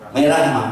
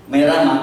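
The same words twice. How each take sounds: First: Said in the usual way. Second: Higher, pushier repeat of merah; insisting husband. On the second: Retold or imitated. Husband insists on red to his wife, higher and pushier. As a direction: push back harder on merah, raising the pitch.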